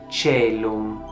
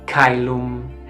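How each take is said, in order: First: It is in Italianate ecclesiastical pronunciation. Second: It is in classical Latin pronunciation.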